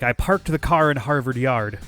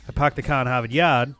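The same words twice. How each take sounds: First: It has an Irish accent with strong r sounds. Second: It has a Boston accent with dropped r sounds. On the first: "If you're going with an Irish accent, it'd be like" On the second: "So a Bostoner would say"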